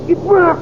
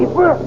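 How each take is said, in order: First: High, loud, falling triumph; triumphant cry. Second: High, loud, rising delight; excited cry. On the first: Zarkov confirming the plan succeeded, triumphant cry. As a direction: land it in triumph. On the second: Zarkov seeing the radium ignite, excited cry. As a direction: shout it with joy. Zarkov sees the plan succeed. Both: Acted.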